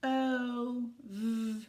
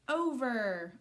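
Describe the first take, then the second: First: "O-V-er" as long O, buzzing V, then er; sounding out. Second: Said in the usual way. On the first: Shown as a demonstration. Teacher helping children read a word, sounded out. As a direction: stretch each sound of "O-V-er" separately. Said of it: "Try and read this word".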